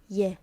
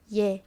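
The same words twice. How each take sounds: No difference in how they are said.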